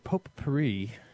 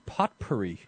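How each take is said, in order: First: The T sounds are left silent. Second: The T sounds are clearly pronounced. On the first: "you don't hear a single one of them" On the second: "if you were to pronounce the word properly"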